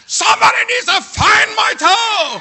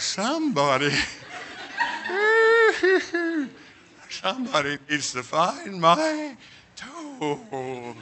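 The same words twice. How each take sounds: First: Loud, high demanding yell; frantic shout. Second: Slow, slurred sedated mumble; drugged drowsy plea. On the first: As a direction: shout it at the whole room. Shouting at nurse and doctor. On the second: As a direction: let the drug pull the words down. They stick a needle in my arm. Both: Retold or imitated.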